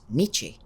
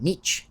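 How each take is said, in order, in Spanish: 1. El nombre termina con una vocal final audible. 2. El nombre termina sin sonido de vocal final. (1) "con la E del final que se pronuncia" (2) "se refieren a Nietzsche como Nietzsche"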